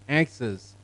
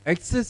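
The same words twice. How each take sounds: First: The stress is on the first syllable. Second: The stress is on the second syllable. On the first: The speaker calls it right. "corrected as access" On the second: The speaker calls it wrong. "Indian pronunciation mostly is access"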